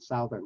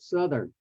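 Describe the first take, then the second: First: The first syllable sounds like the word south. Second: The first vowel is short, like in sun. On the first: The speaker calls it wrong. "most people miss that and they just continue to say Southern" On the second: The speaker calls it right. "The South becomes Su... changes from soft T H to hard T H"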